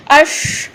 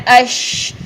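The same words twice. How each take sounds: First: "اش" higher, with a heavy rounded vowel; over-fill the mouth on "اش"; thick sheen. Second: "اش" with a light front vowel and long sh; thin sheen. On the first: Tajweed teacher showing the error to avoid, thick sheen. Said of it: "یہ نہیں کرنا". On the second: Tajweed teacher showing what should be done, thin sheen. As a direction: keep "اش" thin, sh spreading. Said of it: "ہم نے کیا کرنا ہے؟". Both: Shown as a demonstration.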